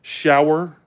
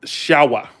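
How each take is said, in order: First: "shower" with the final R sounded; Southern "shower", R kept; Southern pronunciation. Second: "shower" with no final R; New England "shower", R dropped; Northern pronunciation. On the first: Shown as a demonstration. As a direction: say "shower" ending in a clear R. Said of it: "In the South". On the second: Retold or imitated. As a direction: say "shower" as "shah-wuh". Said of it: "We don't say".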